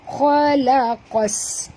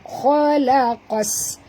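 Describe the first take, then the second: First: The opening kh is pronounced heavy and thick. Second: The same.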